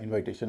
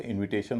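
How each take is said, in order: First: "इनविटेशन" wrongly as in-VAI-tation; wrong pronunciation. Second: INVITATION as "इनविटेशन", short i in second syllable; correct pronunciation. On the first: Teacher showing students what not to say, wrong pronunciation. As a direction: keep the "invite" vowel in "इनविटेशन", like "eye". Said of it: "नहीं होता". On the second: Teacher showing students the changed vowel, correct pronunciation. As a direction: say "इनविटेशन" with a light "vi". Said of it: "इनविटेशन नहीं होता". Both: Shown as a demonstration.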